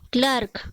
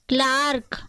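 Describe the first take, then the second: First: The vowel sounds like 'er' in 'her'. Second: The vowel sounds like 'ar' in 'car'. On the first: The speaker calls it wrong. "पर यह गलत उच्चारण है क्लर्क" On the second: The speaker calls it right. "इसको क्या पढ़ा जाता है? क्लार्क"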